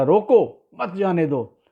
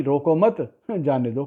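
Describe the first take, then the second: First: रोको punched high and loud, then मत जाने दो run together; pause after रोको. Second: "रोको मत" joined as one phrase, break, then "जाने दो"; group रोको with मत, slight laugh before जाने दो; pause after मत. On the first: King orders guards to stop a fleeing prisoner, pause after रोको. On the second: Doorman mishears the king's order, pause moved to after मत. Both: Acted. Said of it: "comma कहीं और लग गया".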